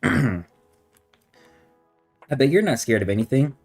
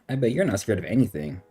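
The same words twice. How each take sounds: First: It is said in a creepy tone. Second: It is said in a plain tone.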